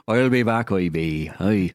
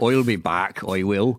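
First: "I'll be back" as a hokey Austrian farmer, lightly done; farmer Terminator. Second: Put-on mild Austrian-accented "I'll be back", lightly done; a hint of Arnold's Terminator line. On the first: Retold or imitated. Joking that the Terminator returns to water the potatoes. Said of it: "To water the potatoes". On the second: Riffing on the Terminator quote in a light Austrian accent. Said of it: "Farmer Terminator".

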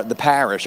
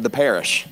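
First: "parish" with a flat a, as in cat; alternative local pronunciation. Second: "parish" said with an eh, like PAIR-ish; local pronunciation attempt. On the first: Guest preacher offering another local version, "parish" with a short a. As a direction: say "parish" with the a of "pat". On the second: Guest preacher trying the local word, "parish" as PAIR-ish. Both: Shown as a demonstration. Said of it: "or however y'all say it".

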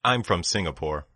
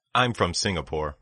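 The two takes are said the same way.

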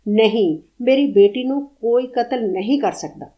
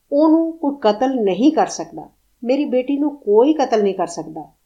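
First: Firm, louder, rock-solid conviction; certainty harder than steel. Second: Firm, unshakable and a bit louder; steely certainty. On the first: Old mother refusing to believe her daughter is dead, rock-solid. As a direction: set the words down like stone. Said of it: "ਫੌਲਾਦ ਤੋਂ ਵੀ ਠੋਸ ਯਕੀਨ". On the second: Mad mother insisting her daughter lives, with steely certainty. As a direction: say it as if nothing could ever shake it. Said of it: "ਉਹਦੇ ਲਹਿਜ਼ੇ 'ਚ ਫੌਲਾਦੀ ਯਕੀਨ". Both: A narrator's reading.

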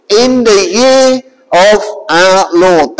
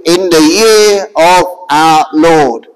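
First: Said in the usual way. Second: "in the year of our Lord" slowed and dropped much lower, each word weighed; solemn emphasis. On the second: Shown as a demonstration. Preacher to the crowd, slow and low solemn emphasis. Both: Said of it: "When you say it like that".

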